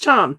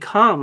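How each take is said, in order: First: The word begins with a ch sound. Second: The word begins with a k sound. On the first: "That's probably the most probable for the C H" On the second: "like in chemistry"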